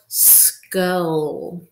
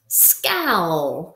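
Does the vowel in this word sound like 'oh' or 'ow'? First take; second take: oh; ow. First: The vowel sounds like long 'oh'. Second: The vowel sounds like 'ow' in cow. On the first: The speaker calls it wrong. "So let's try O first" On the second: The speaker calls it right. "So we'll try ow"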